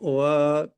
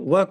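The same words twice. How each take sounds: First: The vowel is drawn out long. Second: The vowel is short.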